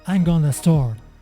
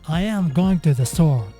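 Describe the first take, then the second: First: Some words are shortened and run together. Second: Every word is said fully and separately. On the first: "Now you can speak faster" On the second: "the original sentence"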